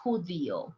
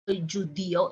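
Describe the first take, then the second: First: Judío with a soft Spanish j like h, quieter; correct judío. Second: Judío with an English j sound; judío mispronounced with a j like judge; wrong judío. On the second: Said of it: "It's not". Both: Shown as a demonstration.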